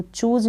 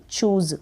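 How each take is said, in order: First: चूज pronounced with final j; wrong j sound. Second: चूज़ pronounced "chooz"; correct z sound. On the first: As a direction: make चूज end like "huge". (चूज के अंत में ज बोलें) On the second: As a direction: end चूज़ with a clear z. (चूज़ के अंत में ज़ बोलें) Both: Shown as a demonstration. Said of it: "तो चूज नहीं".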